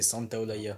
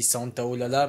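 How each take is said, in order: First: The double consonant is pronounced as a Y sound. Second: The double consonant is pronounced as an L sound. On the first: The speaker calls it wrong. "mais j'arrive pas. Moi, c'est Santa Olaya" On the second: The speaker calls it right. "je sais que ça se dit Santa Olala"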